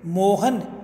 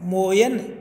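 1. बीच का व्यंजन 'h' ध्वनि है। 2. बीच का व्यंजन 'y' ध्वनि है। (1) "ये में बदल जाता है" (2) "ये में बदल जाता है"

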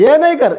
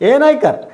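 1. വാക്കുകൾ ചുരുങ്ങി ഒന്നിച്ചു ചേർന്നാണ് ഉച്ചരിക്കുന്നത്. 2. വാക്കുകൾ ചുരുങ്ങി ഒന്നിച്ചു ചേർന്നാണ് ഉച്ചരിക്കുന്നത്.

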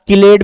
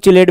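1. इस शब्द की शुरुआत कड़ी k आवाज़ से होती है। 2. इस शब्द की शुरुआत ch आवाज़ से होती है। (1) "आप किलेट भी बोल सकते हो" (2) "चिलेट भी बोल सकते हो"

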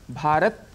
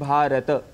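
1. शब्द का अंत व्यंजन t से होता है। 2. शब्द का अंत t के बाद एक छोटे स्वर से होता है। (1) "भारत कहने से त में जो अ है साउंड वह हट जाता है" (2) "तो इसमें भ आ र अ त अ ये ध्वनियाँ हैं"

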